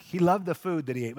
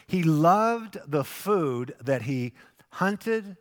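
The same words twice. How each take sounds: First: Said in the usual way. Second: Slow, drawn-out line with "loved" leaned on hard; slow emphasis, "loved" lingered over; stress on loved. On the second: Shown as a demonstration. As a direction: savour the word "loved" and take it slowly.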